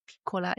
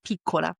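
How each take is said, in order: First: "piccola" with a short i, PICK-ola; pronunciation contrast. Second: "piccola" with a long ee, PEE-cola; pronunciation contrast. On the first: Woman repeating her supposed slip, "piccola" with short i. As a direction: open the first vowel of "piccola" slightly. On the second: Woman repeating the date's correction, "piccola" with long ee. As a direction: tighten the first vowel of "piccola" to ee. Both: Shown as a demonstration. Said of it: "E instead of E".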